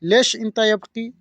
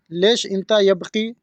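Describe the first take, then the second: First: Said in the usual way. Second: लेश इंता यबकी said slowly, each word clear; slow it down so the learner catches every word; slow, careful repeat. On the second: Shown as a demonstration. (धीरे धीरे साफ़ बोलना) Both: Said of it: "इसको अरबी में बोलेंगे".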